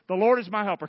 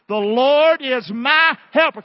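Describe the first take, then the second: First: It is said at a normal, moderate volume. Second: It is said more loudly and forcefully. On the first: "Say this with me" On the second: "Let's do it again louder"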